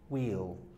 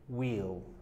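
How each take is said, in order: First: The words are merged into one syllable. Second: The same.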